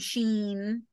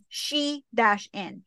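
First: It is one syllable with a long ee vowel. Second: It is two syllables, she then in. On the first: "some people say sheen" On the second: "they actually messaged us back that it's she-in"

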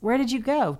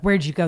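First: The question sounds warm and eagerly interested. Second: The question sounds suspicious and accusing. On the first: I am eager to hear about it. The speaker calls it right. "Tell me, I'm dying to know" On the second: You went somewhere bad. The speaker calls it wrong. "the motive behind it is accusatory"

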